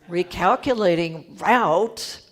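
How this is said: It is said in an impatient, exasperated voice.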